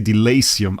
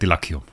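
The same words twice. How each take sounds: First: The name is pronounced the English way. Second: The name is pronounced the German way. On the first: It is copied from how others say it. "I copied that from M K or Barry saying that" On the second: It is how the name first read to a German speaker. "that is uh, proficiently German"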